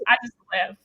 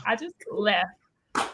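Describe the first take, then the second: First: Said in the usual way. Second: Slow, soft trailing repeat of I just left; quiet. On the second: Real, not acted. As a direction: let I just left fade away slowly.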